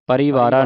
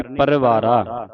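First: ਪਰਿਵਾਰਾ as "pa-ree-vaara"; wrong long vowel. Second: ਪਰਿਵਾਰਾ slowly, as "par-vaara"; short sihari vowel. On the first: Teacher warns against it, ਪਰਿਵਾਰਾ with a long "ee". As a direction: sound a clear "ee" in ਪਰਿਵਾਰਾ. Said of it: "ਪਰਿਵਾਰਾ ਨਹੀਂ ਪੜ੍ਹਨਾ". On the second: Teacher models it slowly, ਪਰਿਵਾਰਾ with very short "i". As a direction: keep the vowel after ਰ in ਪਰਿਵਾਰਾ barely sounded. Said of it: "ਸਿਹਾਰੀ ਹੀ ਉਚਾਰਨ ਕਰਨੀ". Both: Shown as a demonstration.

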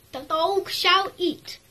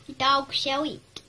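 First: Slow and louder, pitched higher; grand mock decree. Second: A slow, grand proclamation; slow mock decree. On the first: Announcing the dog's meal in a grand mock herald voice. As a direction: proclaim it like a herald. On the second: Declaring the dog's mealtime, slow and mock-grand. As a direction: announce it like a royal decree.

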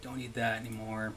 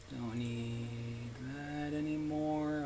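First: Said in the usual way. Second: Very slow, soft, stretched vowels; drawn-out singsong. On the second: Real, not acted. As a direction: stretch every word out long and softly. Second take stretched out slowly.

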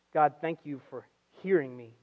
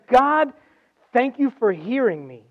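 First: Soft, low, measured thanks; quiet prayer. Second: High, loud call on God, then easing; fervent prayer. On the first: Preacher cites Jesus's phrase to the congregation, quiet prayer. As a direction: say the prayer gently and unhurried. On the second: Preacher voices Jesus thanking God amid grief, fervent prayer. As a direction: cry out the thanks with preaching force. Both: Retold or imitated.

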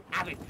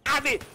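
First: Said in the usual way. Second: Loud, high yell of have it; shouting have it at the enemy. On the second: Real, not acted. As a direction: bellow have it as you strike back. Grenade retaliation in game.

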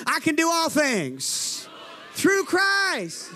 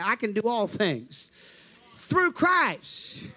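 First: Slow, rising to a shout; preacher's shout building on THROUGH CHRIST; bold declaration. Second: Said in the usual way. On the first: Shown as a demonstration. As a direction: declare it without timidity, drawn out. Redoes line to fix timidity. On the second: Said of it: "you got timid on that one".

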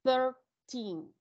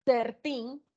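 First: "Thirteen" starting with th, tongue between the teeth. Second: "thirteen" with the tongue curled back on the th; th with tongue tangled. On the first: Teacher shows students the tongue-out th in "Thirteen". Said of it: "deben sacar la lengua". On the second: Teacher compares a tangled-tongue "thirteen" for the class. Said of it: "pero enredando lengua". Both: Shown as a demonstration.

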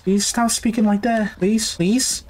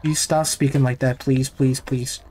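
First: High-pitched, frightened begging; anxious pleading. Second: Said in the usual way. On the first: Real, not acted. Player begging the creepy voice to stop, anxious pleading.

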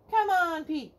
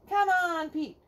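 The two takes are said the same way.

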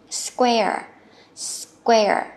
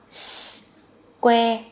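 First: "Square" run together as one syllable; joined up. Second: "Square" in pieces: hissed s, "kwe", tiny "uh"; split with light ending. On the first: Teacher has learners read it joined, "Square" blended in one go. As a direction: blend s and "kwe" without separating the ending in "Square". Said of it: "Đọc liền nè". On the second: Teacher breaks it down for learners, "Square" slowly split with light schwa. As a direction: stretch "Square" out sound by sound. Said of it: "nhẹ thôi ha". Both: Shown as a demonstration.

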